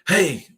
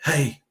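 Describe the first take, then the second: First: It is said loudly. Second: It is said softly.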